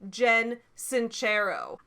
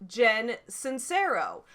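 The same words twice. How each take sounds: First: The surname is said with an Italian pronunciation. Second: The surname is said with an English pronunciation. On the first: The speaker calls it right. "Her name is actually Jen Sincero. It is Italian" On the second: The speaker calls it wrong. "I pronounced it wrong"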